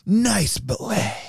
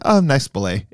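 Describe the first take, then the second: First: It is said in a very dramatic way. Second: It is said in a casual, offhand way.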